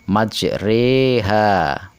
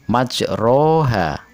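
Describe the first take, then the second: First: The vowel after the r sounds like 'e'. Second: The vowel after the r sounds like 'a'. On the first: The speaker calls it right. "tetapi majreha. Inilah yang disebut bacaan imalah" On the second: The speaker calls it wrong. "tidak dibaca majroha"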